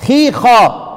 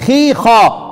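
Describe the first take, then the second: No difference in how they are said.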